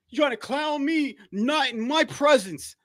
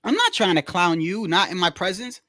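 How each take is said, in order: First: High, slow, puffed-up imitation; mocking HOD. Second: Said in the usual way. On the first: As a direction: strut it out like a self-important boss. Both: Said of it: "look how H O D talking".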